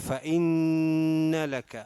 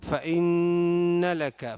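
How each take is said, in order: The two takes are said the same way.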